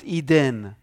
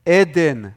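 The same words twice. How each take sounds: First: Eden with a long EE, "EE-den"; wrong anglicized pronunciation. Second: Eden said loudly as EH-den, open e in both syllables; correct Hebrew pronunciation. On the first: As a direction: say Eden the English way, starting on EE. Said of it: "Not Eden". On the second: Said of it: "Not Eden. Not Adin". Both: Shown as a demonstration.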